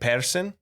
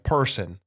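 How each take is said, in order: First: It is said in a Scottish accent. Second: It is said in an Irish accent.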